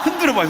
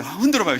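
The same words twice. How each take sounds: First: Shout. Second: Said in the usual way. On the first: Real, not acted. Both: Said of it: "손을 들어보세요".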